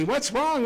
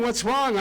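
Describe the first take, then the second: First: Higher, anxious first cry of the question; the wife calling after him in a fright; alarmed wife. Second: The question again, still raised and anxious; alarmed wife, repeated. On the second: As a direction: keep chasing and pleading in alarm. Wife chasing him in alarm. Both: Retold or imitated.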